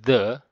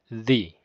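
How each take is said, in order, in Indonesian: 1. Bentuk ini diucapkan sebelum bunyi konsonan. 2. Bentuk ini diucapkan sebelum bunyi vokal. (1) "diucapkan the di depan kata yang dimulai dengan suara konsonan" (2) "di depan kata yang dimulai dengan huruf vokal, dia penyebutannya the"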